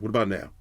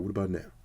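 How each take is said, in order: First: It is said in a plain, ordinary speaking voice. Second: It is said in a put-on, sultry sexy voice. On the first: "let me talk regular" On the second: "let me throw in the sexy voice"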